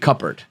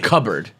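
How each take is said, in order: First: The P sound in the middle is clearly pronounced. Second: The P sound in the middle is left silent. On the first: The speaker calls it right. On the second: The speaker calls it wrong.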